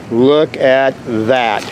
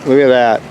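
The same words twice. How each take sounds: First: "Look at that", each word drawn out; slow emphasis. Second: Said in the usual way. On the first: Real, not acted. Same words repeated for emphasis.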